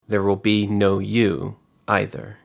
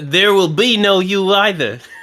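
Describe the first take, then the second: First: It is read without a British accent. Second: It is read in a put-on British accent. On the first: The speaker calls it right. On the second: The speaker calls it wrong.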